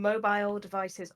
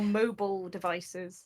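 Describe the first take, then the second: First: Mobile is said with a British pronunciation. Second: Mobile is said with an American pronunciation.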